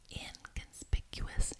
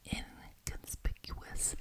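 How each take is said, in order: Both takes have the same delivery.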